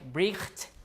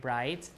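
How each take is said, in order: First: A throaty fricative sound comes before the t. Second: There is no throaty sound before the t. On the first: This is how the word was said long ago. "In Old English, it was like bricht, like that" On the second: This is how the word is said today. "G H is gone"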